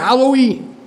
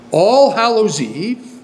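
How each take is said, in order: First: The phrase is said fast and run together. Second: The phrase is said at a normal, unhurried pace.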